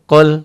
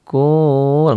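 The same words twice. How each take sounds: First: It sounds firm, clear and annoyed. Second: It sounds soft and pleading. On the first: The speaker calls it right. "tegas, jelas kayak orang lagi kesel" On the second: The speaker calls it wrong. "nggak kayak orang yang merayu, nggak kayak orang yang berharap"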